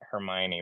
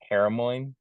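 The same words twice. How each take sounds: First: The name is said in its usual form. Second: The name is said in a misread form. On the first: The speaker calls it right. "I thought Hermione was" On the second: The speaker calls it wrong. "I've been mispronouncing it for years"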